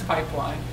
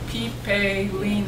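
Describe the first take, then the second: First: It is said normally as two syllables. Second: Every letter syllable is sounded, making four syllables. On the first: "It's pipeline" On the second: "If you're pronouncing every syllable"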